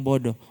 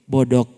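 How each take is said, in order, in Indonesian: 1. Kata ini berakhir dengan bunyi napas yang lembut. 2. Kata ini berakhir dengan bunyi yang terhenti dan keras. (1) "bukan bodoh" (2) "mesti tambah di belakang"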